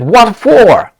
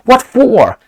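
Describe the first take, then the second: First: A hint of an Australian voice, higher and louder; light Australian accent. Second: Put-on "What for?" in a higher, louder try at an Australian accent; Australian accent attempt. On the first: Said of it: "He said". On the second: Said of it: "I will try to pronounce it".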